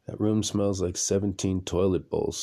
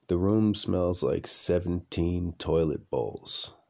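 First: Said in the usual way. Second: Slow, with "seventeen" leaned on hard; stress on seventeen. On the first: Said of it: "Check that". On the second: Shown as a demonstration. Correcting himself to tell the audience, slow and emphatic. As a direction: drag out "seventeen toilet bowls" for effect. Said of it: "No, no. Check that".

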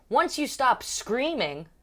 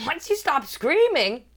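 First: High, slow cabin announcement; mock safety briefing, pitched up; imitated safety announcement. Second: High, loud, slow disbelief; mock shock, raised voice; incredulous repeat. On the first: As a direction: draw it out like an attendant. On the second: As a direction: repeat it louder, as a stunned question.

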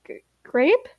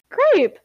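First: Stammered, rising GRAPE in doubt; tentative, higher-pitched query; hesitant question. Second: High, loud GRAPE, falling at the end; delighted high call; excited exclamation. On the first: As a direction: say "Grape" unsurely, stumbling on the G and lifting the pitch. Stammered question, later exclaimed. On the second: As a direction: call out "Grape" in sudden recognition. Exclaimed recognition of a friend. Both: Acted.

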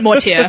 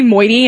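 First: "Mortier" as MOR-tee-air; own pronunciation. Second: "moiety" as MOY-tee, amused; others' mispronunciation. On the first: Shown as a demonstration. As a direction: say "Mortier" with a French-style "-tier" ending. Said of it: "I call it Mortier". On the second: Retold or imitated. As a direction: say "moiety" with an oy and a short tee ending. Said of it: "some people who say moiety".

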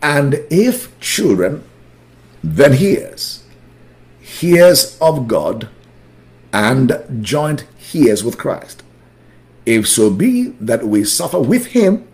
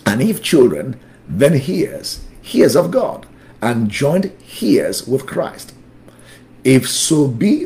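First: Slow, deliberate scripture reading; measured reading with clear pauses between phrases. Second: Brisk scripture reading; moving through the verse without lingering; too quick. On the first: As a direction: read it slowly for a class to follow along. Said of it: "Let me slow down". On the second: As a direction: read the verse out at a hurried teaching pace. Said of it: "I'm going too fast now". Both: Real, not acted.

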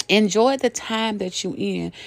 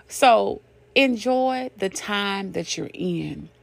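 First: Said in the usual way. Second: Slowed right down, each word weighed; "So enjoy the time that you're in" drawn out slowly; slow emphasis. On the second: Shown as a demonstration. Preacher urging the listeners, slow and weighty.

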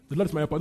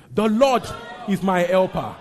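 First: Said in the usual way. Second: Very loud, high-pitched declaration; confident proclamation. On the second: Shown as a demonstration. Preacher showing the congregation confidence, loud bold declaration. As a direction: proclaim it with full conviction. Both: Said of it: "Say it with confidence right now".

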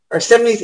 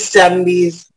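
First: Self-correcting, higher. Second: Said in the usual way. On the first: Real, not acted.

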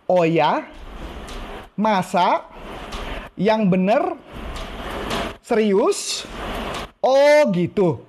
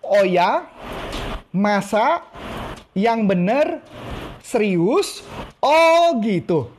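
First: Rising, wide-eyed amazement, last phrase slow and drawn; interested surprise. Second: Interested surprise again. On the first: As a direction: show keen interest phrase by phrase. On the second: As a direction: act fascinated with each word. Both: Shown as a demonstration. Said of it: "Ulang lagi ya".

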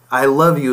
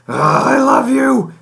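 First: Said in the usual way. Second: Much higher, louder, slow, with an irritated edge; exasperated I love you. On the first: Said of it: "is not what's being communicated". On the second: Shown as a demonstration. To a spouse you're mad at, loud, high, exasperated I love you. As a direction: say I love you while clearly annoyed. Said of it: "but that's really not, "I love you" is not what's being communicated".

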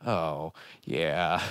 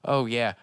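First: Low, slower, sinking oh yeah; mock deflated recognition. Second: Said in the usual way. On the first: Host reacting to dated jokes that now seem sad, mock deflated. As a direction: let it sag as the joke turns sad. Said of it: "less funny and more sad". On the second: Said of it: "some of the jokes is just like".

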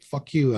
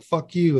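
First: High yelled curse; mock street yell; retold shout. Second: Higher, louder yelled curse back; shouting back on the street; retold shout. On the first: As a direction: fling it back at them. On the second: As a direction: top their insult. His louder reply in shouting match.

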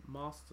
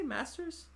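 First: "Masters" with a drawn "ah", like "MAH-sters"; long A. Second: "Masters" with a short A as in "mass". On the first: Defending their own way, "Masters" with long A. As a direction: open the first vowel of "Masters" to "ah". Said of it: "there's no R in it". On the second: Questioning a co-host's accent, "Masters" with short A. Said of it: "why wouldn't you say Masters". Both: Shown as a demonstration.

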